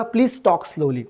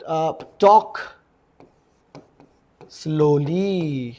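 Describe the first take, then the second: First: Said in the usual way. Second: Very slow, drawn out; teacher modelling the words so students can copy, very slowly; slow demo. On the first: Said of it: "कृपया हळू बोला". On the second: Shown as a demonstration. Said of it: "कृपया हळू बोला यार".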